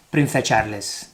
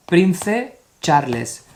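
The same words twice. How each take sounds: First: Prince Charles read as Prinse Charles, every letter sounded; Spanish reading. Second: Prince Charles said the English way; English reading. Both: Shown as a demonstration. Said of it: "That's how we speak in Spanish".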